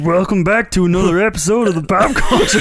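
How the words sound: It is said in a put-on voice.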